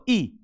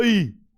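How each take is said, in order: First: ई said through a slightly narrowed mouth; narrow-mouthed vowel. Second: ई held long with the mouth wide open; open-mouthed vowel. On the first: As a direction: keep the mouth small for ई. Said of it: "मुंह थोड़ा सा छोटा करना पड़ेगा". (ई छोटे मुंह से) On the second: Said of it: "मुंह खोल के बोलो". (ई मुंह खोलकर, लंबा) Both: Shown as a demonstration.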